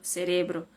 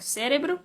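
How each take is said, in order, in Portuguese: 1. O acento está na segunda sílaba. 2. O acento está na primeira sílaba. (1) "não é cérebro, é cerebro" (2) "em português é cérebro"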